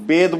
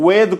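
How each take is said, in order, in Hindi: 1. शब्द 'b' ध्वनि से शुरू होता है। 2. शब्द 'v' ध्वनि से शुरू होता है।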